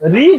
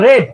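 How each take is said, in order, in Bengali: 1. স্বরধ্বনিটি দীর্ঘ, 'reed'-এর মতো। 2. স্বরধ্বনিটি হ্রস্ব, 'red'-এর মতো। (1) "এই রিডটা রিড না রেড" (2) "এই রিডটা রিড না রেড"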